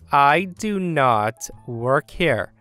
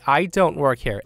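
First: It is said slowly and deliberately. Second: It is said at a normal pace.

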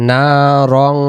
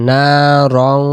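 The two takes are said the same way.

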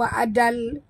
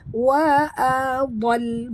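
First: The dad sound is said light and thin. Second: The dad sound is said heavy and full. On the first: The speaker calls it wrong. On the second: The speaker calls it right. "huruf dad tebal"

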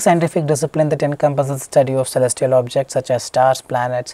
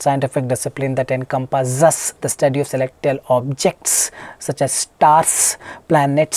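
First: The words are spoken with smooth, relaxed stress. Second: The words are stressed with heavy, over-careful force. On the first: The speaker calls it right. "The same way, you just have to speak" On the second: The speaker calls it wrong. "So they start stressing on the words, which is not required, which you wouldn't do in the real life"

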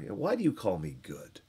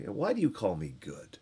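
First: It is said in a mocking, sarcastic tone. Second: It is said in a mocking, sarcastic tone.

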